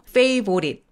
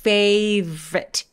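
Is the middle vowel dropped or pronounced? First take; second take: Pronounced; Dropped. First: The middle vowel is clearly pronounced. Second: The middle vowel is dropped entirely. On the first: The speaker calls it wrong. "favorite 보다는 중간에 O를 없애버리고" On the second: The speaker calls it right. "중간에 O를 없애버리고 V에서 R로 바로 가는 거예요"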